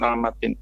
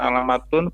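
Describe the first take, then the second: First: The word ends in the sound -in. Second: The word ends in the sound -un. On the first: "bukan alamatin" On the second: "bukan alamatun"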